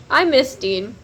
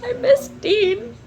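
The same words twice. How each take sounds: First: Said in the usual way. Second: High, slow pining whine; drawn-out lovesick whine; mock whine. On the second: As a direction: whimper it like a lovesick fan. Whiny pining for a book character.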